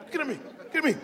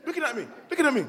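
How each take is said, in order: Both takes have the same delivery.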